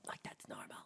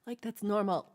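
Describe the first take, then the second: First: Whisper. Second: Said in the usual way. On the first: Acted. Whispered repeat.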